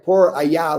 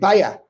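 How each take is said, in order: First: It is said in full as two words. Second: It is squeezed into one short word. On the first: "instead of saying por, por allá" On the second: "they say paya"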